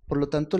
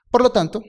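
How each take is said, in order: First: Said in the usual way. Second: "Por lo tanto" higher and louder, punched; emphatic preaching. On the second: Acted. Preacher driving home the point to congregation: loud emphatic "Por lo tanto". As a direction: hit "Por lo tanto" hard like a pulpit conclusion.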